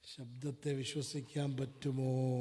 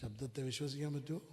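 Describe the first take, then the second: First: Slow, low question with a long last word; slow, deliberate challenge to listeners; drawn-out question. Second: Low, soft, fast question; brisk, low-voiced query; quick question. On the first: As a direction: stretch "പറ്റുമോ" out slowly at the end. Same question repeated, drawn out. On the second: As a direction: ask it quickly and quietly. Same question asked quickly, then drawn out. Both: Real, not acted.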